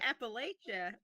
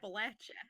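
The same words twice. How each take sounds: First: The third syllable sounds like 'lay'. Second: The third syllable sounds like 'latch'. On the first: The speaker calls it wrong. "if you say it wrong" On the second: The speaker calls it right. "It's Latcha"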